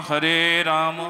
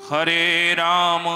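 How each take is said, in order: Both takes have the same delivery.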